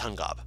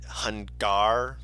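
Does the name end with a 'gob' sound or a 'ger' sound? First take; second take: gob; ger. First: The name ends with a 'gob' sound. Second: The name ends with a 'ger' sound. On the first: The speaker calls it right. "No, it's Hungob" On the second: The speaker calls it wrong. "I said it Hungar, like hunger"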